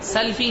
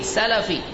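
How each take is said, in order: First: The l is said without a following vowel. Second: The l is followed by a short a vowel. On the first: The speaker calls it wrong. "سلفی نہیں" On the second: The speaker calls it right. "سین اور لام کے فتحہ کے ساتھ"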